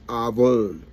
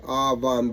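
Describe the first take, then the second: First: The second vowel sounds like 'oh'. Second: The second vowel sounds like 'ah'. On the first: "but the pronunciation is avon" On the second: "it's spelled avan"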